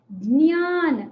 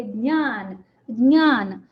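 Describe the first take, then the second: First: ज्ञान slowly as "d-nyaan", onset audible; trace of j audible. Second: ज्ञान as "dnyaan", onset swallowed into the n; j left unheard. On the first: Teacher shows students the audible onset, ज्ञान as "d-nyaan". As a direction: let a brief stop show before "nyaan" in ज्ञान. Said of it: "ज का अंश सुनाई दे रहा है". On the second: Teacher models the correct word, ज्ञान with j unheard, "dnyaan". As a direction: glide straight into the nasal of ज्ञान, "(d)nyaan". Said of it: "ज का अंश सुनाई नहीं देना चाहिए". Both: Shown as a demonstration.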